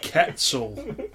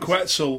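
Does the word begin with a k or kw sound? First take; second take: k; kw. First: The word begins with a plain k sound. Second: The word begins with a kw sound. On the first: The speaker calls it right. "It's not a Q, it's a C" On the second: The speaker calls it wrong. "that's the wrong way of pronouncing it"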